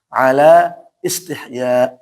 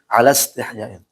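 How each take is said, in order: First: The phrase is read in its separate, original form. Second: The phrase is read joined into the following words. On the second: "Tapi disambung"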